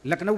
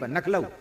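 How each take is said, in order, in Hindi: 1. यह l ध्वनि से शुरू होता है, मानक रूप। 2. यह n ध्वनि से शुरू होता है, ब्रज रूप। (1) "लखनऊ बोले नहीं" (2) "ब्रजवासी लखनऊ नहीं बोलते, नखलऊ बोलते हैं"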